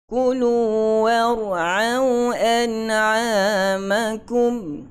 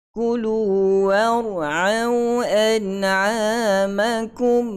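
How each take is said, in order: Both takes have the same delivery.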